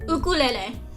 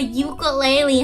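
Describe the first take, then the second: First: The word is said the Hawaiian way. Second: The word is said the common English way. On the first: "He would make people say it's ukulele. I think it's a cute and unique pronunciation" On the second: "a lot of people will say it's a ukulele"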